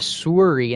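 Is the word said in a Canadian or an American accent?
Canadian. It is said in a Canadian accent.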